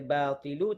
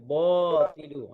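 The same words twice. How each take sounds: First: The 't' sound is thin and light. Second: The 't' sound is thick and heavy. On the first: The speaker calls it right. "Sepatutnya dia baca" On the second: The speaker calls it wrong. "Sebab apa dia baca tebal?"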